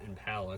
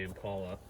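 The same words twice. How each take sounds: First: "Impala" with the middle vowel of "pal"; commenter's pronunciation. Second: "Impala" with a broad AH in the middle; local pronunciation. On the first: Retold or imitated. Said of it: "I'm assuming he meant Impala". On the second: Shown as a demonstration. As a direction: say "Impala" as im-PAH-luh. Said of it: "'cause we say Impala".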